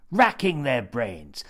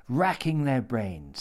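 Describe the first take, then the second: First: "Racking their brains" whispered, slow and drawn out; a slow, relished whisper of "Racking their brains". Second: Said in the usual way. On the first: Acted. Phrase repeated as a whisper.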